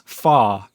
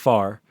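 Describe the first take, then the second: First: The word ends without an R sound. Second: The word ends with an R sound. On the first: "you sound like British" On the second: "instead of far"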